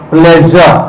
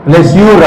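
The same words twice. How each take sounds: First: ప్లెజర్ ending in a soft "-zhuh"; soft zh pronunciation. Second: ప్లెష్యూర్ with a full "-shyoor" ending; local everyday pronunciation. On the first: Teacher models SURE-ending words for class, soft zh pronunciation. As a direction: say ప్లెజర్ with zh, no "yoor". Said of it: "ఈ ఎస్యుఆర్ఈని ఎలా పలుకుతాం అంటే". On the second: Teacher shows class how we commonly say it, local pronunciation. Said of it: "అంటాం మనం". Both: Shown as a demonstration.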